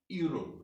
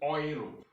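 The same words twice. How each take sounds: First: The word begins with a 'you' sound. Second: The word begins with an 'oy' sound. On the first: The speaker calls it wrong. "Germans don't say Europe" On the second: The speaker calls it right. "they say Europe"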